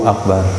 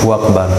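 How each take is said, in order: Both takes have the same delivery.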